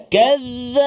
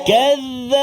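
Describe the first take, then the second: No difference in how they are said.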